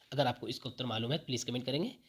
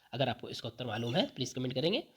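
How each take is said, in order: No difference in how they are said.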